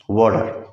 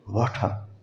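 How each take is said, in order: First: It is said with an American d-like t. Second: It is said with a clear British t.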